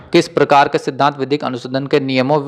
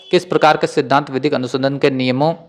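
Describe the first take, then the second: The two takes are said the same way.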